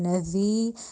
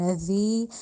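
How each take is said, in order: First: The z sound is soft, tongue between teeth. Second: The same.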